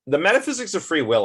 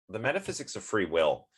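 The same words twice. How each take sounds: First: Title blurted out higher, louder and fast; excited heading, rushed; eager announcing. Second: Said in the usual way. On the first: Real, not acted. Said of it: "I don't think I talked about that".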